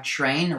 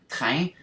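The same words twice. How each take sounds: First: Said in the usual way. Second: "train" said the French way; French pronunciation. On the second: Shown as a demonstration. Explaining words shared with English, French pronunciation of "train". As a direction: say "train" as a French word, nasal vowel, no final n. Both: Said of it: "which in French is".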